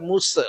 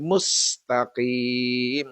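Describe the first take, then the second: First: "musa" with a stray vowel after the S; wrong MUS. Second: Slow "mustaqim", S hissed straight into T, long final I; correct MUSTAQIM. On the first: Teacher showing what not to say, "musa" with added vowel. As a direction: let the S open into an extra syllable in "musa". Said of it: "Bukan musa". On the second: Teacher giving the correct reading, slow "mustaqim". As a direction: hold the hiss, then stretch the end of "mustaqim". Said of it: "tapi mustaqim". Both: Shown as a demonstration.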